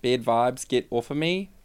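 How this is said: It is said in an Australian accent.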